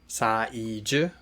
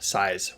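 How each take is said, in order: First: The word is said with three syllables. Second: The word is said with one syllable. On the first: The speaker calls it right. "saiji with three syllables" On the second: The speaker calls it wrong. "not size with one syllable"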